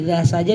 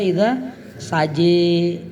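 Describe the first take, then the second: First: The phrase ends with an open a sound. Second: The phrase ends with an e-like sound. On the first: This is the reading without imalah. "Walaili idza saja" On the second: This is the reading with imalah in other recitations. "dibaca idza saje ya dalam qiraat yang lain"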